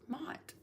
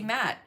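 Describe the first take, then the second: First: The vowel sounds like the one in 'cot'. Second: The vowel sounds like the one in 'cat'. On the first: The speaker calls it right. "it wasn't until I learned it's Mott" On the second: The speaker calls it wrong. "Like I used to say"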